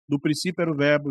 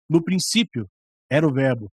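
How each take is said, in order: First: It is read in a flat, even voice. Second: It is read in a lively, varied voice.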